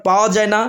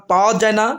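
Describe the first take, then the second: No difference in how they are said.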